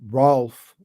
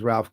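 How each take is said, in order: First: The vowel sounds like a plain O. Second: The vowel sounds like a plain A. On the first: "Rolf would be the O" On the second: "Like Ralph is Ralph Cramden"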